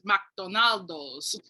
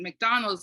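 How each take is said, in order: First: An extra vowel is added before the final s. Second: The name ends without an added vowel sound. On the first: This is how local speakers said it. "it was McDonaldo's" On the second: This is the usual English pronunciation. "it wasn't McDonald's"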